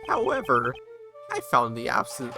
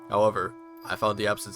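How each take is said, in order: First: It is said in a strained put-on character voice. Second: It is said in a Daredevil-style put-on voice. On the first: "I can't do this voice anymore" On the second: "I'll just do a Daredevil voice since he's blind"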